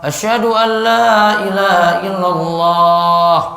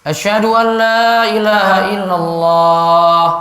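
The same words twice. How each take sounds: No difference in how they are said.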